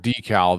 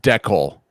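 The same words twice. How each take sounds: First: It is pronounced the non-Canadian way. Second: It is pronounced the Canadian way. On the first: "Canadians don't say that word decal" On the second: "they say that word decal"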